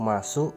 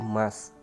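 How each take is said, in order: First: The final u vowel is clearly pronounced. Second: The final u vowel is dropped. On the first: "u di bagian terakhir seringkali cenderung juga kehilangan bunyinya" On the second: "masuk berubah menjadi mas"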